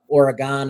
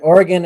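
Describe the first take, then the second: First: Oregon is said with an Ohio pronunciation. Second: Oregon is said with a West Coast pronunciation. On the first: "is how they say it in Ohio" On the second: "is how they say it on the West Coast"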